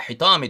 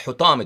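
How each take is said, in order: First: حِطَامِ read with a short i, hi-taa-mi; حِطَامِ pronounced with kasra, ḥi at the start; first reading with i. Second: حُطَامِ read with a short u, hu-taa-mi; حُطَامِ pronounced with damma, ḥu at the start; corrected to u. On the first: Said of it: "حُطَام بولتے ہیں اس کو". (حِطَامِ زیر کے ساتھ پڑھا گیا) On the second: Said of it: "ضمے کے ساتھ". (حُطَامِ پیش کے ساتھ، حُ سے شروع) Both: Shown as a demonstration.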